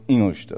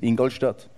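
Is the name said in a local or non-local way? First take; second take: local; non-local. First: The name is said the local way. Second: The name is said in a non-local way. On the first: This shows the speaker has adopted the town. "ich sage Ingolstadt" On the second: This is how outsiders say it. "Ich sage nicht Ingolstadt"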